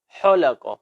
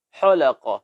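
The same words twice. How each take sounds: Both takes have the same delivery.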